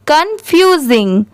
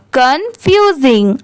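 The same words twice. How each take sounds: The two takes are said the same way.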